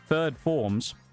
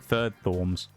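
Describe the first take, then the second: First: The second word begins with an 'f' sound. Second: The second word begins with a 'th' sound. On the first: The speaker calls it right. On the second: The speaker calls it wrong.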